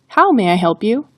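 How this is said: The word how carries the emphasis. "the emphasis is on the word how"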